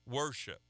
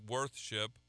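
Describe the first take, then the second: First: No th sound comes before ship. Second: A clear th sound comes before ship. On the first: This is the contracted form used today. The speaker calls it right. "we say worship" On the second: This is the older, uncontracted form of the word. The speaker calls it wrong. "we don't say worth-ship"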